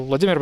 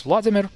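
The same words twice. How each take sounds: First: "Vladimir" as vla-DEE-mir; Russian stress in "Vladimir", second syllable. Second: "Vladimir" as VLAD-i-mir; English stress in "Vladimir", first syllable. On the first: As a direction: put the weight on "DI" in "Vladimir". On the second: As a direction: put the weight on "VLAD" in "Vladimir". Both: Shown as a demonstration. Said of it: "So Vladimir becomes Vladimir".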